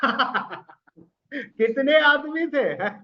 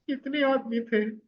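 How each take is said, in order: First: It is said in a happy way. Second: It is said in a sad way.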